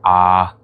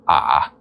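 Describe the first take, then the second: First: The vowel is held at a high pitch. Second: The vowel is low-pitched and creaky. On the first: "That's pretty much my highest point of the voice" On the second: "the lowest point, where I'd also have to sort of creak with it"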